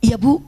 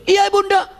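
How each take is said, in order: First: Said in the usual way. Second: High, called-out answer to Mother; acted son hollering back; shouted reply. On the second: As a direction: yell it back from another room. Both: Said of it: "jawabannya teriak dan itu salah".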